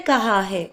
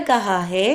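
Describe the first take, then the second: Both takes have the same delivery.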